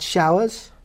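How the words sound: The vowel is 'ow', modern RP.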